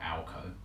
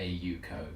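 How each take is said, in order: First: The name begins with an 'al' sound. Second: The name begins with an 'ay-you' sound. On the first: The speaker calls it wrong. "or Alco" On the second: The speaker calls it right. "it is a Yuko"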